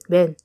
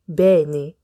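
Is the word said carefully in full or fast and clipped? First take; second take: fast; careful. First: The word is said fast, sounding like one syllable. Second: The word is said fully with both syllables.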